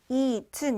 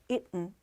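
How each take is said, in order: First: The middle t sound is clearly released. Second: The middle t sound is swallowed. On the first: "eaten 이렇게 발음 안 했죠" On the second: "틀을 먹는 발음이었어요"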